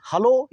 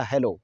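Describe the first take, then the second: First: "हेलो" as huh-LO, with 'a' spelling; first variant. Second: "हेलो" as heh-LO, with 'e' spelling; second variant. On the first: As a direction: say "हेलो" with a neutral 'ha' first. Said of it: "हेलो या हेलो". ("हेलो" को 'हलो' बोलें) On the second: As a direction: say "हेलो" with a clear 'he' first. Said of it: "दोनों ही सही हैं". ("हेलो" में साफ़ 'हे' बोलें) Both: Shown as a demonstration.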